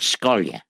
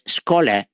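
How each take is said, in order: First: The name ends with a 'ya' sound. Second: The name ends with a plain 'a' sound. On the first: This is the Yiddish form of the name. "That's the way we say it in Yiddish" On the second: This is the Polish form of the name. "Skola in Polish"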